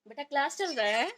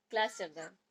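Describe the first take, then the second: First: Loud, high call across the room; calling out to son. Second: Said in the usual way. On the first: Real, not acted. Mother calling her son to his online class, loud and high.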